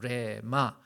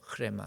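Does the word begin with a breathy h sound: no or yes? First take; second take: no; yes. First: The word starts directly with the r sound. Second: The word starts with a breathy h sound. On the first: "원어로 얘기하면 레마라고도 하고" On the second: "정확한 발음은 흐레마예요"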